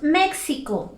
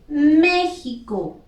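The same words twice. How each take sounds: First: The x is said as a ks sound. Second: The x is said like a throaty j sound. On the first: The speaker calls it wrong. "Nosotros no decimos México" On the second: The speaker calls it right. "decimos México. Aquí la X suena como J"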